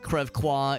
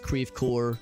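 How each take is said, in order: First: It is pronounced the French way. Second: It is pronounced the American way, spelled-out. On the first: "It's not" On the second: "We pronounce our French places like very phonetically"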